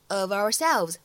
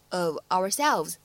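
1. 两个词连在一起读，中间没有停顿。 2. 这两个词分开读，不连在一起。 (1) "连读之后呢可以读成" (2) "如果你不连读也是完全可以的，我们就直接读成"

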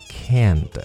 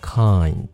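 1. 这个元音的发音像 'cat' 里的那个。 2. 这个元音的发音像单词 'eye'。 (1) "通常会被误读成kind" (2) "它真正的读法是kind"

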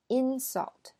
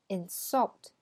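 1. 重音在第一个音节。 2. 重音在第二个音节。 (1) "它们两个听起来是不一样的" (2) "它们两个听起来是不一样的"

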